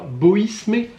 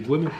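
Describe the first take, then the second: First: The s sound is pronounced in the name. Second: The s sound is left silent in the name. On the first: The speaker calls it wrong. "il y a un S, je le prononce" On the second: The speaker calls it right. "Non, c'est Boimé"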